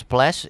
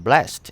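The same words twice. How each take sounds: First: "blessed" said as one syllable, blest. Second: "blessed" said as two syllables, bless-ed. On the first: Teacher showing "blessed" as one-beat blest. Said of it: "is pronounced as one syllable". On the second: Teacher showing "blessed" as bless-ed. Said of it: "is pronounced as two syllables". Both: Shown as a demonstration.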